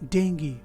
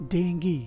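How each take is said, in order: First: The word ends in an 'ee' sound. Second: The same.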